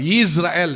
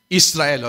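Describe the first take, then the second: First: The name begins with a 'y' glide sound. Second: The name begins with a plain vowel sound. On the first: The speaker calls it right. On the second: The speaker calls it wrong.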